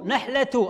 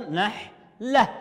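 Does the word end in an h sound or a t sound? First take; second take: t sound; h sound. First: The word ends with a t and u. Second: The word ends with an h sound. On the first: The final letter carries a u vowel. "لو أنها مضمومة نقول نحلة تو، أصبحت تاء" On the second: The final letter carries no vowel. "لأنها تاء مربوطة، التاء المربوطة إذا كانت ساكنة تنطق كأنها هاء"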